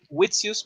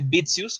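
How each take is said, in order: First: The name begins with a W sound. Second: The name begins with a B sound. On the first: The speaker calls it wrong. "está con W" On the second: The speaker calls it right. "yo creo que se dice Bitzius"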